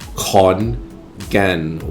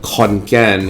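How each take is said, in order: First: The second word starts with a weak G sound. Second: The second word starts with a hard K sound.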